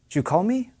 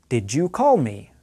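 First: The first two words blend into one reduced sound. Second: Each word is pronounced fully and separately. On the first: This is casual speech. "In casual speech, I might say something like this" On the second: This is formal speech. "one you might read or hear in formal English"

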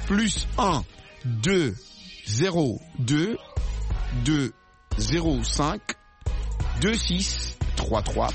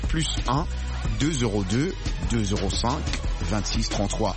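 First: The number is read at a slow pace. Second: The number is read at a quick pace. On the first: "je vais dire ça lentement" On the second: "il faut dire ça lentement"

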